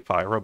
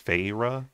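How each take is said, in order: First: The first syllable sounds like 'fy'. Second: The first syllable sounds like 'fay'. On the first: The speaker calls it wrong. "I say Fyra" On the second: The speaker calls it right. "but it's Fayra"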